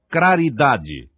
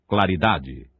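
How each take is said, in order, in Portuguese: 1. A segunda consoante é um som de R. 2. A segunda consoante é um som de L. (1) "Craridade, pela forma vernácula" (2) "pela forma vernácula"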